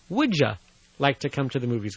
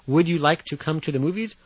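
First: 'Would you' is reduced to sound like 'wouldja'. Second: 'You' is said in full, separate from 'would'.

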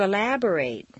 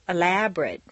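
First: The final syllable has a full 'ate' vowel. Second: The final syllable has a reduced vowel. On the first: It is used as a verb. "it's a full A sound" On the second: It is used as a noun or adjective. "completely reduced"

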